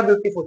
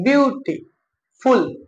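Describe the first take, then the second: First: Said in the usual way. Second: beautiful slowly split as beauty, pause, फुल; broken into syllables. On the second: Shown as a demonstration. Teacher showing a longer word, slowly split into its parts. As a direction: pull beautiful apart into separate beats. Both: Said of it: "जो एक syllable में नहीं बोल पाओगे".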